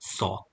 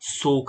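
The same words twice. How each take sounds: First: The vowel is a short open 'o' sound. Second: The vowel is a long gliding 'oh' sound. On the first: The speaker calls it right. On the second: The speaker calls it wrong.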